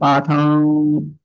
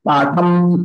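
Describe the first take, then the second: First: The word ends with lips open, nasal only. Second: The word ends with lips closed on m. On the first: Nothing follows the word. "दोनों ओष्ठ खुले रहेंगे" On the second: Another word follows directly. "वहां close हो जाएंगे ओष्ठी भाग"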